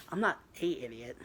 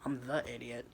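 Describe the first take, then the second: First: "a" said as a full "ay", set apart; stress on A. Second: "the" picked out before "idiot"; stress on THE. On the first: Answering a rival's insult, stress on "a". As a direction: lean on "a" in "a idiot", pronounced "ay". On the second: Topping a rival's insult, stress on "the". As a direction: lean on "the" to correct the article. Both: Acted. Corrects insult by contrasting article.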